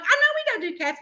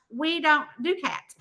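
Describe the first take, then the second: First: High-pitched wheedling reply; retold plea to a reluctant husband; pleading concession. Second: Retold husband's measured refusal; lightly voiced reluctant husband; mild objection. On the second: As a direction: object evenly, in your usual register.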